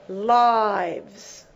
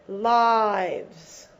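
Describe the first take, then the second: No difference in how they are said.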